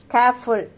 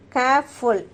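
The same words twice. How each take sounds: First: Said in the usual way. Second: "careful" split in two beats, care-ful; broken into syllables. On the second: Shown as a demonstration. Teacher showing a two-syllable word to students, "careful" split as care-ful. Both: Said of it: "two syllables".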